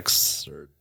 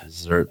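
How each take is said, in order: First: The word begins with an 'eks' sound. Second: The word begins with a 'z' sound. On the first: The speaker calls it wrong. "I feel like it should be pronounced exerts" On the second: The speaker calls it right. "No, it's Zerts"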